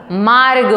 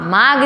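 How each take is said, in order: First: मार्ग said with the r sounded, maarg; मार्ग shown as the right form, maarg; correct pronunciation. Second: मार्ग said without the r, as maag; मार्ग given as the wrong form, no r; wrong pronunciation. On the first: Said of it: "मार्ग होता है". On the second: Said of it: "मार्ग नहीं होता". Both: Shown as a demonstration.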